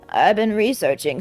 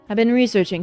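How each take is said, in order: First: It is said in a put-on old man's voice. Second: It is said in a natural voice. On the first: The speaker calls it right. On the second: The speaker calls it wrong.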